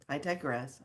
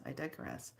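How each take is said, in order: First: Said in the usual way. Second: Much softer, murmured "I digress"; muttered self-correction; quiet repeat. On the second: Shown as a demonstration. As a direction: say "I digress" again under your breath.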